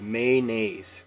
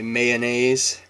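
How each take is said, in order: First: A vowel sound is dropped, shortening the word. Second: Every vowel sound in the word is pronounced. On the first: This is how locals say it. "We just drop the O" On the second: This is how locals do not say it. "we don't say mayonnaise"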